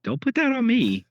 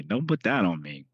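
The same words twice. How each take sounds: First: High, loud indignant protest. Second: Said in the usual way. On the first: Real, not acted. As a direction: cry out in mock outrage. Protesting a joke blame.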